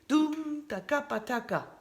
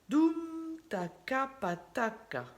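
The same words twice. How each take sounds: First: The syllables are spoken at a fast pace. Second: The syllables are spoken at a slow pace. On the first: "Un peu plus vite" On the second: "Je vous les dis lentement"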